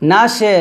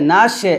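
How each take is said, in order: Both takes have the same delivery.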